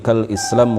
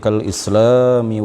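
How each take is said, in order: First: The word ends on a bare m sound. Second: The word ends with an added i vowel. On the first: The line fits the poem's meter. The speaker calls it right. "kal islam dibaca pendek dan mimnya disukun" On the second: The line follows grammar but breaks the meter. The speaker calls it wrong. "Kalau dibaca panjang dan mimnya di e, kasroh"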